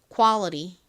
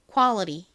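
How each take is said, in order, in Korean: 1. 미국식 억양으로 발음해요. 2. 미국식 억양으로 발음해요.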